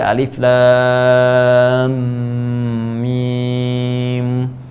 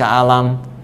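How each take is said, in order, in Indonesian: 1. Setiap huruf dibaca dengan nama hurufnya masing-masing. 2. Huruf-hurufnya digabung menjadi satu kata pendek. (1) "Ini yang dibaca alif lam mim" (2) "Ini yang dibaca alam"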